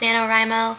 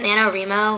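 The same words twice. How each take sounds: First: The 'Wri' part sounds like the word 'write'. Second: The 'Wri' part does not sound like 'write'. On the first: The syllable matches the word it stands for. "since W R I is supposed to stand for write, I'm thinking it's pronounced NaNoWriMo" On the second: This is how many people say it. "a lot of people pronounce it NaNoWriMo, which I think sounds a lot better"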